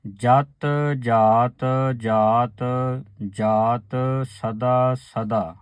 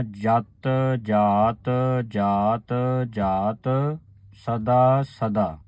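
First: ਜਤ ਜਾਤ ਜਾਤ drawn out very slowly before a pause; very slow recitation. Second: ਜਤ ਜਾਤ ਜਾਤ drawn out very slowly, resting on ਸਦਾ; very slow recitation. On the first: Teacher reciting very slowly so the sangat hears each ਜਾਤ. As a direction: chant each ਜਾਤ slowly, then rest after ਸਦਾ. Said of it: "ਇੱਥੇ ਆਣ ਕੇ ਰੁਕਣਾ ਹੈ". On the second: Teacher repeating the line very slowly for the sangat. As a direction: draw out every word and stop at ਸਦਾ. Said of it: "ਇਸ ਤਰ੍ਹਾਂ ਉਚਾਰਨ ਕਰਨਾ ਹੈ". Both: Shown as a demonstration.

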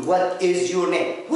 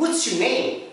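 First: Full form, slow. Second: "What's your name" run together quickly, contracted. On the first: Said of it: "ما حدش بيقول". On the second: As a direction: say "What's" as one quick clipped word. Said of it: "لو تركزوا الأمريكان". (نطق "What's" مختصرة وسريعة) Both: Shown as a demonstration.

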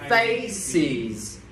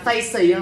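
First: "faces" slow, two linked syllables, FAY-siz. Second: "faces" cut to FAY-si, no final z; missing final sound. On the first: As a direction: join face and iz into "faces", z sounded. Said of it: "đọc nối thành". (đọc nối "faces", rõ âm cuối) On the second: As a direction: drop the closing z of "faces". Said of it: "thiếu âm gì phía cuối rồi". (đọc "faces" thiếu âm z cuối) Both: Shown as a demonstration.

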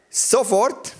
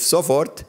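First: Sofort punched high with a rising tune; stress on sofort. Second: Said in the usual way. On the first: Shown as a demonstration. Preacher stressing the Bible verse for the church, sofort punched high. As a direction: hit the word sofort hard and lift it. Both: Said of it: "mit Betonung auf sofort".

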